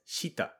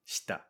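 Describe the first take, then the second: First: The vowel after sh is fully voiced. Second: The vowel after sh is silent. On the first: The speaker calls it wrong. "I'm not pronouncing it as shita" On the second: The speaker calls it right. "we make the vowel silent for this case, and it sounds like shita"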